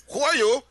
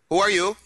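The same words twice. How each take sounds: First: Put-on high, loud, thick Israeli accent. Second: Put-on surprised, in a thick Israeli accent; startled Israeli asking, Israeli accent. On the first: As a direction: ham up a heavy Israeli accent. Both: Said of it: "he's got this thick Israeli accent".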